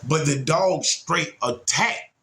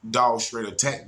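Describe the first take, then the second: First: Slow, stressed on dog; stressed attacked. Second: Said in the usual way. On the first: Retold or imitated. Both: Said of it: "When I say attack".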